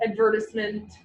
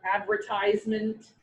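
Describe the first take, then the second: First: Advertisement with stress on "vert", ad-VER-tis-ment; Advertisement, -tis- short as in "this"; Canadian advertisement. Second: Advertisement stressed on "ad", AD-ver-tize-ment; advertisement with a long "ize"; American advertisement. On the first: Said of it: "that's how I say it". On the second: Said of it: "So how does". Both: Shown as a demonstration.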